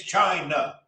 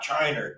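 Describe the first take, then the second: First: China said slowly, ending in a plain "nuh" with no r; correct China. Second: China said as CHY-ner, with an r at the end; China ending in an r sound; wrong Chiner. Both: Shown as a demonstration. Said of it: "There's no E R on China".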